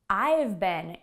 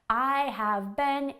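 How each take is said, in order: First: The word have is contracted to a v. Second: The word have is said in full. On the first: "We use contractions" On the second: "native English speakers don't usually speak this clearly"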